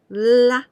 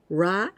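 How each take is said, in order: First: The consonant is a clear English-style L. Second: The consonant is a strong English-style R. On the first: "and not like also L" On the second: "So this is not ra, ra. This is not like this"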